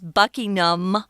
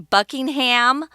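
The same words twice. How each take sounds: First: The final 'ham' is swallowed and reduced. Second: The final 'ham' is said fully and clearly. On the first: The speaker calls it right. "Kind of swallow that ham" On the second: The speaker calls it wrong. "a lot of Americans often say Buckingham, but that's not how it's pronounced"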